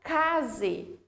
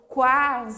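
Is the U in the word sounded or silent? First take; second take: silent; sounded. First: The U is silent after the K sound. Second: The U is sounded after the K sound. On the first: The speaker calls it wrong. "eu não falo case" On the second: The speaker calls it right. "Falo quase"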